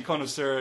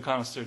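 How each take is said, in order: First: "connoisseur" opening with a long O, CONE-uh-sur; "connoisseur" with CONE as first syllable; first pronunciation of connoisseur. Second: "connoisseur" opening with a short vowel, CON-uh-sur; "connoisseur" with CON as first syllable; second pronunciation of connoisseur. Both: Shown as a demonstration. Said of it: "connoisseur and connoisseur differentiation".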